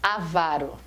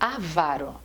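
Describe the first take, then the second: The two takes are said the same way.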